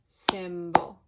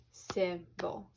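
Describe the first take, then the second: First: Symbol said much louder, short I stressed; loud demo word. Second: Said in the usual way. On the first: Shown as a demonstration. Teacher models symbol so students hear the I. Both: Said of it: "See how the Y is making a short I sound".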